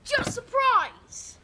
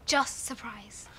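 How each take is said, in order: First: High, drawn-out excited shout; practice shout. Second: Said in the usual way. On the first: Shown as a demonstration. Child echoing the correction as a surprise, shouting. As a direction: yell it out, stretching "surprise". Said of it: "you shout". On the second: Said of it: "No, you shout".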